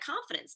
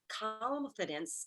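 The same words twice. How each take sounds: First: The word is said quickly with a short, ordinary ending. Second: The word is said calmly with its ending drawn out. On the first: It is the ordinary everyday word. The speaker calls it wrong. "it sounds like confidence because that's what our ear wants to hear" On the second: It is a new coined term, not the ordinary word. The speaker calls it right. "I have to kind of say it like that... be calm and drag that out"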